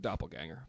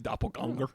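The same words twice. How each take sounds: First: The word is said with English sounds. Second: The word is said with German sounds. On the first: The speaker is not German. "I'm not German, so doppelganger" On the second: The speaker is German. "it might be doppelganger if your if your name is Hans"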